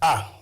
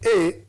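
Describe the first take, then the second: First: It is said as the short vowel sound. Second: It is said as the name of the letter. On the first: "That is sound A" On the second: "A is an alphabetical letter"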